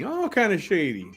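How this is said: It is said in a put-on voice imitating her.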